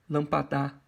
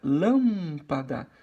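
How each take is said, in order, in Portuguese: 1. A tônica está na última sílaba. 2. A tônica está na primeira sílaba. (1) "não" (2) "Então fica lâmpada"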